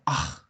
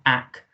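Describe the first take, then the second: First: It ends with a raspy sound from the throat. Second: It ends with a hard k sound. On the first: The speaker calls it right. "but ach" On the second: The speaker calls it wrong. "not ak"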